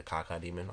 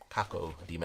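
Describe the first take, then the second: First: "Cacodemon" run together as KAH-kuh-demon; slurred quick pronunciation. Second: "Cacodemon" with a clear O in caco; careful pronunciation. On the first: Host showing their own habit, "Cacodemon" said as cocka-demon. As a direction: reduce the second O in "Cacodemon". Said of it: "I say it su-, fa-, super fast". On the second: Host checking the item's name, "Cacodemon" with a full second O. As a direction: say "Cacodemon" as KAH-koh-demon. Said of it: "I feel like I say it". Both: Shown as a demonstration.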